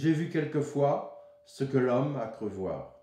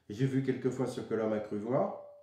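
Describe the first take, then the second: First: A short pause falls after the sixth syllable. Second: The line runs on without any pause. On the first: The speaker calls it right. "C'est six syllabes, six syllabes" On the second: The speaker calls it wrong. "c'est pas douze syllabes prononcées comme ça d'un seul coup"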